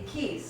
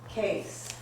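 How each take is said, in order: First: The name is pronounced the English way. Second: The name is pronounced the German way. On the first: "in English it would be keys" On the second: "the German way might be case"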